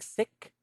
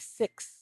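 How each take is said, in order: First: The word ends without an s sound. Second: The word ends with a clear s sound. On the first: The speaker calls it wrong. "Instead of saying sick" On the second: The speaker calls it right. "I need for you to say six"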